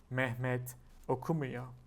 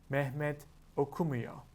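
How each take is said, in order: No difference in how they are said.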